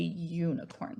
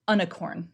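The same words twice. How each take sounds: First: The word begins with a long 'you' sound. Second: The word begins with a short 'uh' sound. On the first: The speaker calls it right. "We say unicorn. So this is one of those long U's" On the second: The speaker calls it wrong. "We definitely don't say unicorn"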